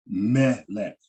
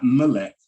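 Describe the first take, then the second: First: "Melech" with the stress on the final syllable, lech; "Melech" said right, last syllable stressed; stress on the accent. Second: "Melech" said the wrong way, louder, first syllable leaned on; the wrong "Melech" with a reduced first vowel; "Melech" stressed wrongly as a mistake. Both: Shown as a demonstration. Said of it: "not Melech".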